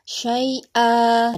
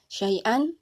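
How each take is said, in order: First: The word ends with a bare 'a' sound. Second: The word ends with an 'an' sound.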